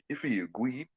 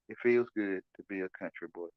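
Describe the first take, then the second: First: It is said in an exaggerated country accent. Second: It is said in his plain own voice.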